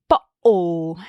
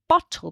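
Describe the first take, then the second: First: The middle consonant is a glottal stop. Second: The middle consonant is a clear t sound. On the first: The speaker calls it wrong. "Adding glottal stops" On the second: The speaker calls it right. "instead of saying bottle"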